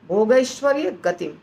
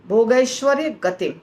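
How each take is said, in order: Both takes have the same delivery.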